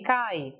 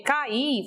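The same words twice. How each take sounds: First: "cai" as one syllable, A gliding into I; diphthong. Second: "Cair" with A and stressed I in two syllables; vowels in hiatus. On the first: Teacher contrasting the verb form, vowels joined in a diphthong. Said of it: "é um ditongo". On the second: Teacher showing the hiatus in the word, vowels in hiatus. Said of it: "ocorre nessa sílaba um hiato". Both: Shown as a demonstration.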